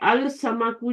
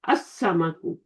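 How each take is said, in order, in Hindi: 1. s से पहले 'l' की आवाज़ साफ़ बोली जाती है। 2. 'l' एक दोहरी 's' की आवाज़ में मिल जाता है। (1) "अल समाकु जो है वो बिकम्स असमकु" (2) "बिकम्स असमकु"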